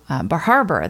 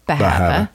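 First: The r sounds are pronounced in standard style. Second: The r sounds are dropped, Maine style.

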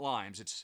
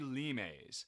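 First: Said like the English word for the fruit. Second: Said with a Latin-style pronunciation. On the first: The speaker calls it wrong. "I know it's not limes" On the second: The speaker calls it right. "I will try to remember to say limes"

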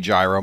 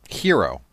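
First: The word begins with a J sound. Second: The word begins with a Y sound. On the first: "I guess you could say gyro" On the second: "They pronounce the G as a Y"

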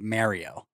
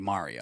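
First: Mario is said with a Canadian-style vowel. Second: Mario is said with the standard vowel. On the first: The speaker calls it wrong. "some Canadians will say Mario" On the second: The speaker calls it right. "even though it is clearly Mario"

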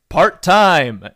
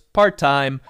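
First: It is said in a cool, punchy way. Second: It is said in a flat, offhand way. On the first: The speaker calls it right. "and it sounds cool" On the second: The speaker calls it wrong. "and it doesn't sound cool"

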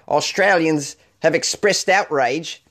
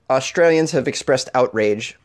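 First: It is spoken in an attempted Australian accent. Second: It is spoken in the speaker's usual accent. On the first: "I'm trying to do an Australian accent" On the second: "Let's get back into it on a serious tip"

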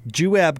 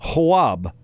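First: The word begins with a J sound. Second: The word begins with a W sound. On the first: "the other one like that is Juab County" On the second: "Because it's a soft J"

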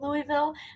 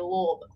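First: The name is said clearly with full syllables. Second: The name is said mumbled with swallowed syllables. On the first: This is how outsiders say the name. The speaker calls it wrong. "if you say Louisville, their fans are going to get mad" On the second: This is how locals say the name. The speaker calls it right. "it's like you have food in your mouth"

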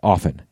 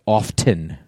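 First: The T sound is silent in the word. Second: The T sound is pronounced in the word. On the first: The speaker calls it right. "That's the word, often" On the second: The speaker calls it wrong. "I hate people who say often"

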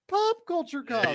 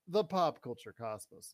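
First: It is said in a special put-on voice. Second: It is said in an ordinary speaking voice. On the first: The speaker calls it right. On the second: The speaker calls it wrong.

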